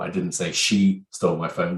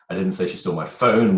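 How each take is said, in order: First: The stress falls on the word she. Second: The stress falls on the word phone. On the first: Someone other than her stole it. "which means infers it could have been somebody else" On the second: Something other than the phone was stolen. "which infers it could be something else that was stolen"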